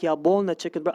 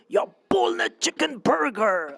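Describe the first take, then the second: First: It is said in a plain, normal voice. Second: It is said in an odd, altered voice. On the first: "I wouldn't go like" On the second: "I changed my tone a little bit"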